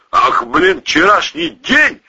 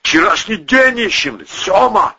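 First: Slow, high-pitched menace; menacing. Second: High, strained hoarse voice; hoarse reply. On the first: Boss advancing on his pal, menacingly. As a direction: throw it back as a threat. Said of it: "грозно уточнил Валерий". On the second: Battered Volyna answering the boss, hoarsely. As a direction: answer back with a rasp. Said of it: "хрипло ответил Волына". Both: A narrator's reading.

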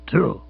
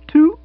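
First: Said in the usual way. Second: Very high, loud startled "Two?". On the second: Acted. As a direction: yelp the question in shock. Startled echo of number.

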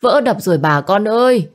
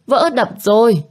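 First: Raised, urgent warning call; alarmed neighbour calling out to everyone; villager shouting alarm. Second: Frantic repeat of the warning; higher shouted alarm. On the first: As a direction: cry out that the dam broke. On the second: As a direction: pitch climbing, urgent repeated cry. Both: A narrator's reading. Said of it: "miệng kêu hét".

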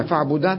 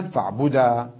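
First: Said in the usual way. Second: فاعبدا as fa'budaa; pausal alif. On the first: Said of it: "هنا فاعبدن". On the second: Shown as a demonstration. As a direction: say فاعبدا with a long final aa. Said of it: "بالألف".

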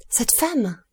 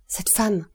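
First: Higher, falling cry of recognition; agitated shock. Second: Hushed, mild shock; shocked recognition. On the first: Steward points out the woman to the count, agitated shock. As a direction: repeat it higher, with mounting alarm. Servant repeats it, more agitated. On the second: Steward spots a woman among the guests, shocked recognition. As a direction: let the recognition slip out, understated. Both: A narrator's reading.

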